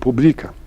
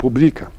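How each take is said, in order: First: The stress is on the second syllable. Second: The stress is on the second syllable.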